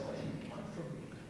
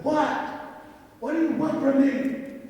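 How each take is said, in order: First: Hushed, nearly voiceless plea; emotional. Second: High, loud demand; acting out an exasperated outburst, pitch jumping up; mad. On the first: Retold or imitated. Man pleading with his horse, emotional and hushed. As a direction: drop to a defeated whisper, as if giving in. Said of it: "got emotional". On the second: Man confronting his stubborn horse, mad and demanding. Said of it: "I got mad".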